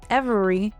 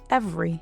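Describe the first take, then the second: First: Every syllable of the word is fully pronounced. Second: A middle syllable is dropped, shortening the word.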